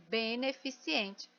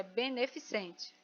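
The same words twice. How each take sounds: First: Beneficiente, slow and soft, with an extra i before ente; common mispronunciation. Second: Beneficente clearly, with no i before ente; correct pronunciation. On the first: Teacher imitates how many people say the word wrongly, softly. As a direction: say beneficiente the mistaken way, slowly. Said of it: "muita gente fala assim". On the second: Teacher gives the class the correct form after the wrong one. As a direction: say beneficente the right way. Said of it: "A forma correta é beneficente". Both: Shown as a demonstration.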